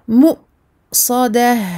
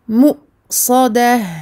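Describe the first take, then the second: Both takes have the same delivery.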